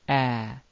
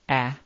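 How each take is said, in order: First: The vowel is said as a doubled sound. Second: The vowel is held very briefly. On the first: "or double" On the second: "It can appear short"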